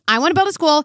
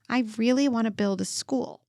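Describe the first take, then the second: First: It is said insistently and intensely. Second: It is said calmly and gently.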